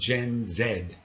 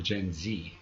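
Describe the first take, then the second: First: Z is said as zed, British style. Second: Z is said as zee, American style.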